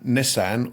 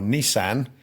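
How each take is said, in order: First: Nissan is said the speaker's own, non-American way. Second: Nissan is said the American way.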